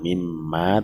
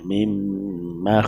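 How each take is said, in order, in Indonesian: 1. Vokal akhir dibaca panjang. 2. Vokal akhir dibaca pendek. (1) "bukan mimma, tidak panjang" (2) "tapi pendek"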